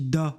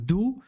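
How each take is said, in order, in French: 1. La voyelle est un o ouvert. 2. La voyelle est un o fermé. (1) "Ça devient un O ouvert" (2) "je dis pas do"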